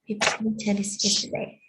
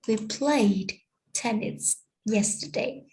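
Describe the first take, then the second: First: The d ending of played is dropped. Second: The d ending of played is clearly pronounced. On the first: "but we just hear" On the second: "We cannot hear"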